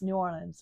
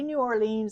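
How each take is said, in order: First: The name is said quickly with syllables run together. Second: The name is said slowly with every syllable clear. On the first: This is how it comes out in fast everyday speech. "It's New Orleans when I talk fast" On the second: This is how it is said when being filmed. "I say New Orleans on the camera"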